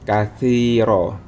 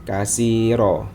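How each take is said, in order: First: The middle consonant is a soft 'th' sound. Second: The middle consonant is a plain 's' sound. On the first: The speaker calls it right. "lidah kita berada di tengah-tengah gigi seri" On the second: The speaker calls it wrong. "bukan kasiro, bukan menggunakan huruf sin"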